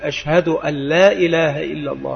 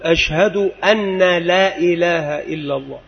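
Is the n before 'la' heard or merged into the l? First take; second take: merged; heard. First: The n merges into the following l. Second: The n is pronounced before the l. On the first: The speaker calls it right. "ففيها إضغام بغير غنة" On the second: The speaker calls it wrong. "لا يراعي الإضغام بغير غنة"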